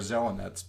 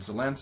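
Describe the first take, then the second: First: The name is said more slowly and in full. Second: The name is said quickly and clipped short.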